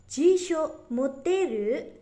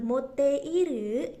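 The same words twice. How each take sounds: First: "moteru" said with the i dropped, slowly and clearly; slow teacher demo of "moteru" with rising tune; contracted moteru. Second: "moteiru" said slowly with the i kept; the wrong full form "moteiru", said slowly. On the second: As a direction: spell out "moteiru" slowly, every sound. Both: Shown as a demonstration. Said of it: "Jadi bacanya bukan".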